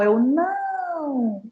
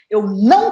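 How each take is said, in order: First: The word não is stretched out and prolonged. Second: The word não is short and firmly accented. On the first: The speaker is welcoming and flexible. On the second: The speaker is firm and assertive.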